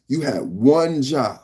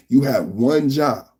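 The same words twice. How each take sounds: The two takes are said the same way.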